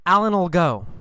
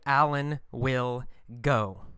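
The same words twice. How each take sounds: First: "Alan'll" run together, will shrunk to "ul"; contracted normal speech. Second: "will" said as its own full word; careful full form. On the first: Teacher shows normal fast speech, "Alan'll" contracted. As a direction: slur will into "Alan'll" as one word. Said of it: "we usually say". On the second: Teacher shows learners the long form, "will" uncontracted. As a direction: say "will" separately and softly, word by word. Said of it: "But in normal speech, fast speech". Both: Shown as a demonstration.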